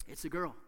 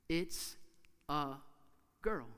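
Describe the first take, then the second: First: Said in the usual way. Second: Put-on "It's... a... girl", a long pause after each word; suspenseful gaps between "It's", "a" and "girl"; word-by-word reveal. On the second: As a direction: announce "It's a girl" one word at a time.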